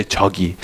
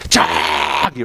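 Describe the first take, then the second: First: Said in the usual way. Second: "chuggy" stretched long to mean really far; "chuggy" pulled out slow with a rising end; drawn out. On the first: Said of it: "you say". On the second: Shown as a demonstration. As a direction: hold the vowels of "chuggy" long. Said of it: "say it really long".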